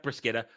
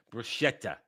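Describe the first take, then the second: First: "bruschetta" with a hard k, bru-SKET-ta; wrong pronunciation. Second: "bruschetta" with a soft sh, bru-SHET-ta; corrected pronunciation. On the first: Streamer showing how not to say bruschetta, mispronouncing. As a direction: demonstrate "bruschetta" with SK in the middle. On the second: Streamer giving the right bruschetta after the wrong one, correcting. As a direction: say "bruschetta" with SH in the middle, quieter. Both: Shown as a demonstration. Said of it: "Not bruschetta".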